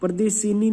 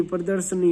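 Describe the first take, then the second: First: प्रदर्शिनी with an added short 'i' before the n; wrong form. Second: प्रदर्शनी with no 'i' sound before the n; correct form. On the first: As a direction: say प्रदर्शिनी as pra-dar-shi-nee. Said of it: "प्रदर्शिनी नहीं होता". (प्रदर्शिनी में 'शि' बोलकर गलत रूप) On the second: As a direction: say प्रदर्शनी as pra-dar-sha-nee. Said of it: "प्रदर्शनी होता है". (प्रदर्शनी में 'श' पर इ की मात्रा नहीं) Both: Shown as a demonstration.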